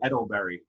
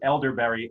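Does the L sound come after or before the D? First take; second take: after; before. First: The L sound comes after the D. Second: The L sound comes before the D. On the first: The speaker calls it wrong. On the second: The speaker calls it right.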